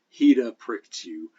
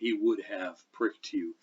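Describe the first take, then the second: First: The auxiliary verbs are reduced and contracted. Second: Every word is said in full, unreduced.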